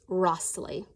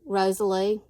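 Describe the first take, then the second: First: The name is said as Rossley. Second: The name is said as Rosalie. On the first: This is the believed correct pronunciation. "but I think it's Rossley" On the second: This is how it would be said locally. "in Mississippi, we would probably call this Rosalie"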